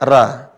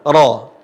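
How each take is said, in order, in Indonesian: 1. Vokal R tipis, seperti A biasa. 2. Vokal R berat, condong ke O. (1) "Tidak boleh dibaca ra" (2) "cara mengucapnya ketika berharokat fathah gimana? Ro"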